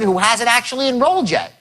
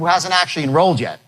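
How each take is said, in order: First: It is said with more emotion in the voice. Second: It is said in a plain, flat tone. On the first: The speaker calls it right. "One more emotional in there brings them forward" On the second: The speaker calls it wrong. "That's how I said it, which was wrong"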